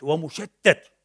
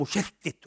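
First: ومشتت ending in -at, wa-mushattat; passive participle vowel. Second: مشتت ending in -it, mushattit; active participle vowel. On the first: Lecturer adding that the world is scattered, slow mushattat with final a. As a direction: say ومشتت slowly with an a in the last syllable. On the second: Lecturer describing the scattering world, slow mushattit with final i. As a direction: say مشتت slowly with an i in the last syllable. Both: Shown as a demonstration. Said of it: "عالم مشتت ومشتت".

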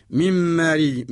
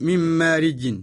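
First: Drawn out slowly, the way Quran is recited; slow recitation. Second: Said in the usual way. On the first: Shown as a demonstration. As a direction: stretch من مارج slowly like a recitation.

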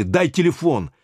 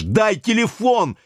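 First: Higher, insistent demand; demanding the phone, raised. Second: Much higher, slow, hoarse and rough cry; hoarse, rough, high-pitched yell for the phone; high hoarse shout. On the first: Acted. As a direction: snap out the order. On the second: A narrator's reading. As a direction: rasp it out high and rude. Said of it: "выкрикнул Юра высоким голосом, очень хрипло и грубо".

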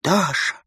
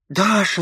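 First: A first, half-held frantic call of her name. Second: Frenzied cry. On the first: Runevsky calls to the apparition, first frantic call. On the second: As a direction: cry her name again, breaking into frenzy. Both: A narrator's reading. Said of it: "закричал он в исступлении".

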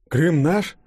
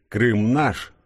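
First: High, rising surprised question; taken aback, voice lifting sharply; astonished question. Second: Exultant slogan, pitched up; understated triumphant chant; mild crowd shout. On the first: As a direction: ask it in puzzled disbelief. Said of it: "удивлённо пробормотал Денис". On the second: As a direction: lightly voice a cheering crowd's cry. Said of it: "кричащих". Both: A narrator's reading.

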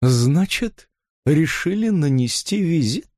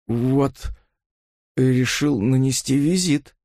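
First: Sneering. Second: Hoarse. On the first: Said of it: "Наконец процедила". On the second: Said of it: "хрипло произнёс он". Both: A narrator's reading.

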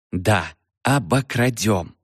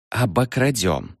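First: Slow, deliberate обокрадём spelled out; slow insistence. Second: Said in the usual way. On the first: A narrator's reading. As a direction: say обокрадём slowly as to a child. Eve repeats slowly for Freddy.

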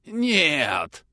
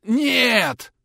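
First: Gurgling hoarse rasp; hoarse, quieter. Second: Much higher, louder cry; shouted no. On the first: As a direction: rasp it like blood in the throat. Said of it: "но уже гораздо тише". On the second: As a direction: cry out in horror. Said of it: "крикнул Чуев". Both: A narrator's reading.

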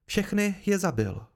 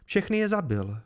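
First: Higher, slow, deliberate declaration; raised voice, slowed for weight; slow emphatic repeat. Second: Higher-pitched public announcement; clear, raised declaration at normal pace; declared aloud. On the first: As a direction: drive it home word by word for everyone. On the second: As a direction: announce it so everyone hears. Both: A narrator's reading. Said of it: "prohlásila Kryn na hlas, aby to všichni slyšeli".

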